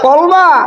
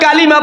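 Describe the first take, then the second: First: The word is shortened to two syllables. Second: The word is said in full, three syllables.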